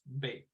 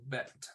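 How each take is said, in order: First: The vowel is long, as in 'bait'. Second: The vowel is short, as in 'bet'. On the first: This is a less common pronunciation. "or it can be pronounced bait" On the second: This is the usual pronunciation. "called bet"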